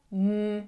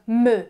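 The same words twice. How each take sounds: First: It is said as the bare letter sound. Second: It is said as the letter's full name. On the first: The speaker calls it right. "kizárólag a hanggal válaszolj" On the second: The speaker calls it wrong. "nem úgy válaszolsz neki, hogy M"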